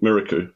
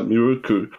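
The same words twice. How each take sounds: First: The name is said in a German-style way. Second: The name is said in a Japanese-style way. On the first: The speaker calls it wrong. "rather than Miruku" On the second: The speaker calls it right. "it is like Miruku"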